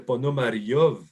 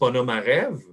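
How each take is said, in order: First: The name ends with a 'yov' sound. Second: The name ends with an 'ev' sound. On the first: This is how it is said in Russia. "le Ev en Russie, c'est Yov" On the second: This is the usual local way of saying it. "On dit Ponomarev"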